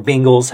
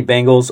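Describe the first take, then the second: First: Bengals said as "BING-gulls"; alternate pronunciation. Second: Bengals said as "BANG-gulls"; alternate pronunciation. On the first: Sports podcaster unsure of the team name, Bengals said "BING-gulls". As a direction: say Bengals with an "ing" first syllable. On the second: Sports podcaster giving his team's opponent, Bengals said "BANG-gulls". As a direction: say Bengals with an "ang" first syllable. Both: Shown as a demonstration. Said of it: "however the hell you say it".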